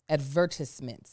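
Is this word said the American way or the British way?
British. It is said with a British pronunciation. "Isn't that how they say it in England?"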